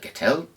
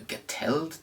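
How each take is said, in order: First: It is said with an English accent. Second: It is said with a German accent. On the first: "if I'm thinking with my English head, head on" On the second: "if I'm thinking with my German head on"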